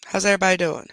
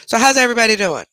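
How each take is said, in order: First: Said in the usual way. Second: Бодро и звонко: "so how's everybody doing?"; bright, raised, upbeat hello to the chat; cheery greeting. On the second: Real, not acted.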